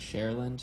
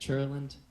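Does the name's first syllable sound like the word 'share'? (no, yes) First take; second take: yes; no. First: The first syllable sounds like 'share'. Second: The first syllable does not sound like 'share'. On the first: This saying stops people from asking about the spelling. "share like the singer, land like the ground" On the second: This is how the name is normally said. "I pronounce it Churland"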